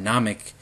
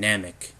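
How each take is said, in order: First: The A is said with a Japanese vowel. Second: The A is said with an English vowel. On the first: "it's called Namek in Japanese" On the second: "and Namek in English"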